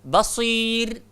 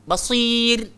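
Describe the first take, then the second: Both takes have the same delivery.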